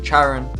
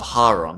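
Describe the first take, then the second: First: The name is said the British way. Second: The name is said the Greek way. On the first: "I am going to pronounce it" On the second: "in Greek, it's"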